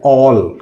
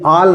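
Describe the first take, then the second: First: The vowel is a rounded 'aw'. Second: The vowel is an open unrounded 'aa'. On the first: The speaker calls it right. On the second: The speaker calls it wrong.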